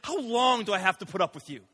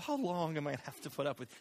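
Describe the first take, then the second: First: It sounds stern and exasperated. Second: It sounds soft and gentle, lovey-dovey.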